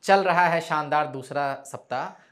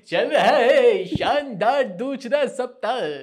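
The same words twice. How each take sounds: First: It is said in a plain, normal speaking voice. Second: It is said in a small-town announcer's tone.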